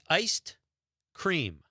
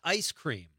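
First: The first word ends with a d sound. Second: The first word ends without a d sound. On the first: The speaker calls it right. "It's iced cream" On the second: The speaker calls it wrong. "it's not ice cream"

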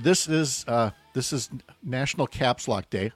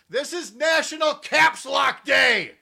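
First: It is said at a normal speaking volume. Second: It is said loudly, as if shouting. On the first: The speaker calls it wrong. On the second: The speaker calls it right.

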